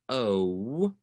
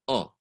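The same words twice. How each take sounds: First: The vowel glides into a second sound. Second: The vowel stays one short pure sound. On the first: The speaker calls it wrong. "we don't want oh" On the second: The speaker calls it right. "We want oh"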